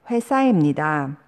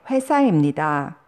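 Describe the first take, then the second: No difference in how they are said.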